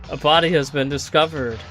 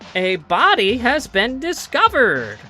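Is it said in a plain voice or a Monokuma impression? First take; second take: plain voice; Monokuma impression. First: It is said in a weaker, plainer voice. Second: It is said in a Monokuma character voice.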